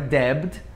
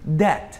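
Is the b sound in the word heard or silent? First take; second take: heard; silent. First: The b sound is pronounced. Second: The b sound is silent. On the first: The speaker calls it wrong. "não é debt" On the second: The speaker calls it right.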